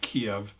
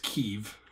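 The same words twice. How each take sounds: First: The name has the older, non-Ukrainian pronunciation. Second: The name has the Ukrainian pronunciation. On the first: The speaker calls it wrong. "it's not Kiev" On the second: The speaker calls it right. "it's Kiev, ... Ukrainian pronunciation"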